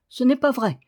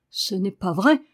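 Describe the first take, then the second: First: Hissed denial. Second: Louder denial rising at the end; protest, outraged; indignant cry. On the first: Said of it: "siffla Daniel". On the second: Boy protesting the girl's words, with an indignant cry. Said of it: "cria-t-il". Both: A narrator's reading.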